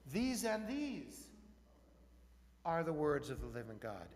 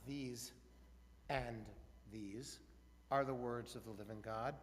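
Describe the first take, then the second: First: The words 'these and these' are emphasized. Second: The words 'these and these' are not emphasized. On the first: The argument itself is what matters. The speaker calls it right. "put brackets in your mind around the words these and these" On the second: The final ruling is what matters. The speaker calls it wrong.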